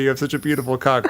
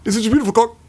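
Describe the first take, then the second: First: Awkward clipped line. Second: High, chopped-off movie line; awkward clipped line. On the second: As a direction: cut it off abruptly, awkwardly. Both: Retold or imitated. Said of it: "so awkward and clipped".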